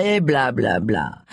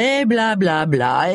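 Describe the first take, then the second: First: Dismissive blah-blah. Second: Mocking blah-blah. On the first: Pretend. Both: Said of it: "jouer les indignés".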